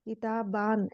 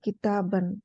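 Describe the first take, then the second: First: The last syllable has a long a vowel. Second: The last syllable has a short a vowel. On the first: The speaker calls it wrong. "हम उसको इस तरह नहीं पढ़ेंगे" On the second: The speaker calls it right. "अलिफ तो आएगा लेकिन उसको यूज नहीं करेंगे पढ़ते टाइम"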